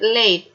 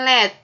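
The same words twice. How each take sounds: First: The vowel glides like the letter name 'A'. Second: The vowel is plain, without an 'ay' glide. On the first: The speaker calls it right. "tapi late" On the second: The speaker calls it wrong. "Bukan late"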